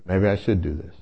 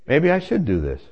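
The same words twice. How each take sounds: First: Lower, pondering repeat; grave reconsidering. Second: Said in the usual way. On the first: Retold or imitated. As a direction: drop low as the idea sinks in. Repeats idea, more gravely.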